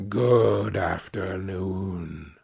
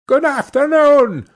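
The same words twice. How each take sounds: First: Lower, softer and very slow; cold quiet dismissal. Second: Higher and louder curt farewell; sharp dismissal. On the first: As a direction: let it drop, final and cold. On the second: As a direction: snap the goodbye to end it. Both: Acted. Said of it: "said Scrooge".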